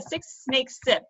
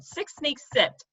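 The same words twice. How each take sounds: First: "six snakes sip" drawn out, each s hissed; slow, stressing the s. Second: "six snakes sipped" drawn out, each s hissed; slow, stressing the s. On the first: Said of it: "That's hard for me". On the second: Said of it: "without a problem, but". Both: Shown as a demonstration.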